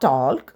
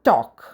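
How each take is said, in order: First: The L sound is pronounced in the word. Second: The L sound is silent in the word. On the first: The speaker calls it wrong. "It's not" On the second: The speaker calls it right. "L is silent, so it should be pronounced as talk"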